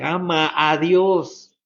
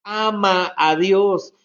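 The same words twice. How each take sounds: First: Slow plea. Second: Emphatic repeat. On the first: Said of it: "Con toda nuestra mente". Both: Shown as a demonstration.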